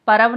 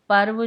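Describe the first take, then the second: First: पर्व read as "parav", with an extra vowel between र and व; wrong spelling read out. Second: पर्व said as "parv", half र joined straight to व; correct reading. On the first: Teacher reading the misspelt word aloud as parav. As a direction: sound out the misspelt पर्व as par-av. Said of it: "ये सारे के सारे अशुद्ध हैं". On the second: Teacher reading the correct spelling aloud as parv. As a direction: say पर्व cleanly as parv, no vowel after र. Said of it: "शुद्ध शब्द हमारे कौन से हैं". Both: Shown as a demonstration.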